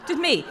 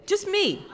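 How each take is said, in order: First: Louder plea breaking into a laugh. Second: Pleading. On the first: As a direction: laugh on the repeat. Begging, repeated with laugh. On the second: Begging, repeated. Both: Retold or imitated.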